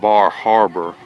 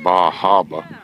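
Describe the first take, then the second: First: It is said in the speaker's usual accent. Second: It is said in the local residents' accent.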